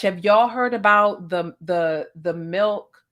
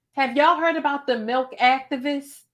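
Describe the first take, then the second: First: Said in the usual way. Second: Milk activists said higher and louder, punching y'all; emphatic rerun. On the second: Shown as a demonstration. Redoing the line for the viewers, emphatic and raised. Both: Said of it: "Got to say it like that".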